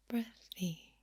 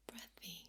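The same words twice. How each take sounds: First: Said in the usual way. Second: Very soft, airy near-whisper on "breathy". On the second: Shown as a demonstration. Showing listeners breathy soft speaking, very breathy and hushed. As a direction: let "breathy" out almost entirely on air. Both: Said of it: "when I do more breathy".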